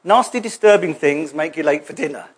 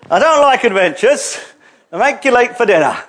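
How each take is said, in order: First: Said in the usual way. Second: Lightly voiced grumbling little hobbit; a touch of hobbit fussiness; mock reluctant hobbit. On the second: Mimics reluctant hobbit-like listeners.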